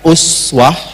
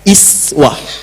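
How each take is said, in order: First: The word begins with an 'u' vowel. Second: The word begins with an 'i' vowel. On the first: "Bisa dibaca uswah riwayat Hafiz dari Asim" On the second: "Bisa dibaca iswah riwayat Qalun juga Warash dari Nafi'"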